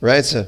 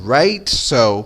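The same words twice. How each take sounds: First: It is said quickly, small and reduced. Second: It is said slowly with exaggerated pronunciation. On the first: This is how it sounds in everyday speech. The speaker calls it right. "Você vê que é bem pequenininha assim a pronúncia" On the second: It is exaggerated to make it easier to follow. The speaker calls it wrong. "Não é um negócio right, so. Isso sou eu aqui, professor, exagerando a pronúncia"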